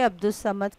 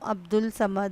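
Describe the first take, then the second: First: An s sound comes before 'Samad'. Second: An l sound comes before 'Samad'. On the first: The speaker calls it right. "तुम्हारा सही नाम अब्दुस समद ही है।" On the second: The speaker calls it wrong. "मेरा नाम अब्दुल समद है।"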